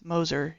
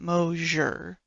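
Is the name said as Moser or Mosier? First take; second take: Moser; Mosier. First: The name has two plain syllables, Moser. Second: The name has an extra ee sound, Mosier. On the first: The speaker calls it right. "It's Moser" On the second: The speaker calls it wrong. "It's not Mosier"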